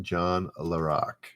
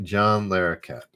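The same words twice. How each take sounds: First: Larroque cut short at a final k, no -ette; surname Larroque without its final -ette syllable; mispronounced surname. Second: Larroquette with the final syllable "ket"; surname Larroquette, ending in "ket" rather than "rock"; corrected surname. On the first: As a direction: say Larroque, ending on "rock". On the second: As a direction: say Larroquette in full, ending -ette. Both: Real, not acted. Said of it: "Sorry, not Larroque".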